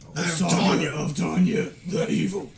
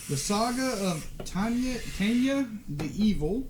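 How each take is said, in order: First: It is said in a gruff Batman voice. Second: It is said in his normal voice.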